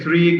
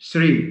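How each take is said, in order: First: The word begins with a th sound. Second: The word begins with an s sound. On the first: The speaker calls it right. "three goes to" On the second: The speaker calls it wrong. "goes to Sri"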